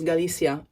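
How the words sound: The c is pronounced like an s. "we pronounce our C's with a S sound"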